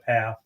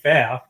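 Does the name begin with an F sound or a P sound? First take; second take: P; F. First: The name begins with a P sound. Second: The name begins with an F sound. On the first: This is the pronunciation the family changed to. "but it was changed to Path" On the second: This is the original, older pronunciation. "it used to be Faf yeah, back in the day"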